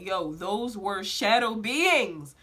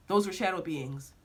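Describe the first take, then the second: First: Slow, drawn-out SHADOW BEINGS; emphatic realization. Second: Lower, understated "shadow beings"; voice in a dream. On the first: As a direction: stretch out "shadow beings" as a dawning revelation. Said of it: "it became very clear to me". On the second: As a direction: say "shadow beings" evenly, like a voice overheard. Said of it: "I heard this voice that's saying". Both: Retold or imitated.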